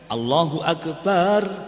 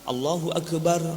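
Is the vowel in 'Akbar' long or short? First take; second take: long; short. First: The vowel in Akbar is drawn out long. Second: The vowel in Akbar is kept short. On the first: The speaker calls it wrong. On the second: The speaker calls it right.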